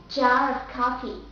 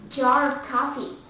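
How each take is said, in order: The two takes are said the same way.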